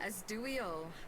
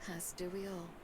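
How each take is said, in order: First: It is said at a normal loudness. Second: It is said softly, almost to herself.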